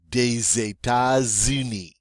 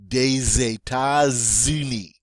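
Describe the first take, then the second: First: The S sounds are linked as Z. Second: The same.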